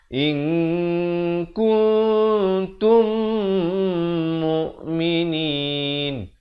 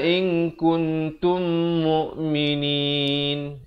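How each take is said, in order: First: The nasal sounds are held for two counts. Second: The nasal sounds are cut short. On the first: The speaker calls it right. "yang betulnya ... In dua harakat, kun dua harakat, tum juga idgham dua harakat" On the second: The speaker calls it wrong. "dia tidak cukupkan dua harakat ... Itu tak sempurna"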